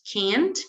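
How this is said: It is said with an American accent. "Inglés americano diríamos can't"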